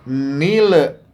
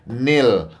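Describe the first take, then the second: First: An extra vowel sound follows the final consonant. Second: The final consonant ends cleanly without extra vowel. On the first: The speaker calls it wrong. "Le-nya ini namanya tawalud. tidak boleh seperti itu" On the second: The speaker calls it right. "mestinya nil"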